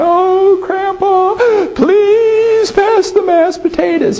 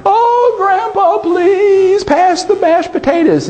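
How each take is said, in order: First: Put-on very high, wailing little girl voice; mock sobbing child begging for potatoes; granddaughter crying. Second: Put-on very high, sing-song wailing child voice; hammed-up weepy little girl asking twice; granddaughter crying. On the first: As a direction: whine it like a weepy granddaughter. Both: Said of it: "his granddaughter starts crying".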